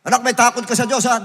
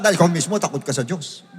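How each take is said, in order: First: Loud, high mock-parent call; calling to a child. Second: "ikaw mismo" hit hard, the rest brought down; pointed at the parent. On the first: Preacher mimics a parent calling to a child, loudly. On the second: Preacher turns from the child to the parent, pointed. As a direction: stress on "ikaw mismo", then "takot ka sa Diyos" drops back. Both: Shown as a demonstration.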